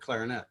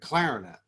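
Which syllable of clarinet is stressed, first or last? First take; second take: last; first. First: The stress is on the last syllable. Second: The stress is on the first syllable. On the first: This is not how it is said in New Orleans. "you don't play the trombone or the clarinet" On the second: This is how it is said in New Orleans. "There's a first syllable emphasis on these"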